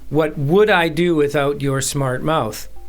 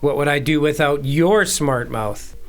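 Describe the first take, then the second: First: The stress is on "would". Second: The stress is on "your".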